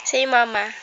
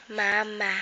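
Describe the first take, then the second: First: Said in the usual way. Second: "Mama" said softer and lower, slowly; modelled word for baby. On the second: Shown as a demonstration. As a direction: coax "Mama" gently, two clear syllables.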